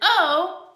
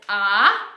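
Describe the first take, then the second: First: The vowel sounds like the letter's own name. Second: The vowel is short, unlike the letter's name. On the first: "which is long" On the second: "which is short"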